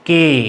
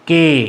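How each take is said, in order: The two takes are said the same way.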